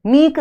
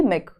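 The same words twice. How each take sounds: First: "मीक" with a stretched long ई. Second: "मिक" with a quick short इ. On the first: Teacher showing the wrong ending, "मीक" with long ई. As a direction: hold the vowel of "मीक" long. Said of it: "मीक नहीं है". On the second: Teacher explaining the vowel sign, "मिक" with short इ. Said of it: "छोटे ई की मात्रा". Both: Shown as a demonstration.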